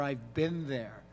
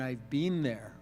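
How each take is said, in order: First: It is said with an American pronunciation. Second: It is said with a Canadian pronunciation. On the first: "Americans' ear go to ... I've been there" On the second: "rather than I've been there ... which a Canadian would sort of half and half do"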